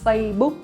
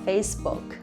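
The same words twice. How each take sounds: First: It is said with Vietnamese pronunciation. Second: It is said with English pronunciation. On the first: The speaker calls it right. "In Vietnamese we say Facebook" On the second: The speaker calls it wrong. "not Facebook"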